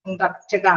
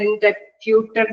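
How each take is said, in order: First: The middle sounds like 'rup' with a short u. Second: The middle sounds like 'pyoo' with a long u. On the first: The speaker calls it right. "ഇന്ററപ്റ്റഡ് ആണ്" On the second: The speaker calls it wrong. "ഞാൻ ഇന്റർപ്യൂട്ടഡ് എന്നാണ്"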